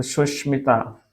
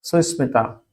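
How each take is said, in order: First: सुष्मिता with sh, slow; changed form सुष्मिता. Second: सुस्मिता with s sound; unchanged सुस्मिता. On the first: Teacher showing the changed sound, slow sh in सुष्मिता. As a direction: slowly turn the s to sh in सुष्मिता. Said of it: "मूर्धन्य शा बदल जाता है". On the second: Teacher joining su plus smita, s in सुस्मिता. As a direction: say a plain s in सुस्मिता. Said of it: "सु plus स्मिता". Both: Shown as a demonstration.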